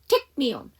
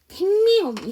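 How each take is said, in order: First: There is a small break between take and me. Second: Take and me run together without a break. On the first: The speaker calls it right. "끊어주셔야 돼" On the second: The speaker calls it wrong. "take me home 이런 말 없어요"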